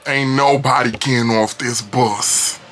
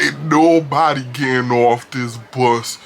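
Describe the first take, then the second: First: Put-on slow, slurred drunk threat; drawn-out menacing drunk; drunkie's voice. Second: Put-on slow, heavy drunk threat; drunkie's voice. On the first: Shown as a demonstration. Drunk man on the bus threatening passengers, slow and slurred. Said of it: "give y'all a physical, a visual". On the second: Drunk man with a knife blocking the exit, slow. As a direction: drag it out like a drunk. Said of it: "He could".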